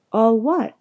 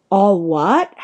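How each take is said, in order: First: Said in the usual way. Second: Loud, outraged "all what?"; thundering, with a steep rise at the end; thundered question. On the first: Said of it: "asked Harry". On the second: A narrator's reading. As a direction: boom it back in disbelief. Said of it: "Hagrid thundered".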